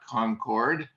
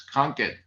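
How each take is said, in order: First: It is said the general, non-local way. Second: It is said the local Massachusetts way. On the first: The speaker is not from the area. The speaker calls it wrong. "you would know it's not Concord, although most that's how you say that word" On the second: The speaker is from the area. The speaker calls it right. "It's Concord"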